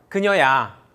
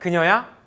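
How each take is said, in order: First: The voice falls at the end. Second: The voice rises at the end. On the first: It is a statement that it is her. "It's her" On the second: It asks whether it is her. "Is it her?"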